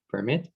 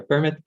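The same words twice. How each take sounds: First: PerMIT, weight on the closing syllable; verb-style "permit"; "permit" with light per, stressed MIT; stress on second syllable. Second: PERmit, weight on the opening syllable; noun-style "permit"; "permit" with stressed PER, light mit; stress on first syllable. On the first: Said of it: "the stress is on the second syllable". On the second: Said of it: "the stress is on the first syllable". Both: Shown as a demonstration.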